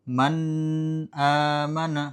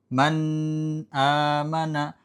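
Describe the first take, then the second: Both takes have the same delivery.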